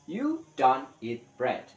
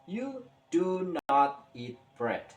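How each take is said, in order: First: It is said fast. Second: It is said slowly.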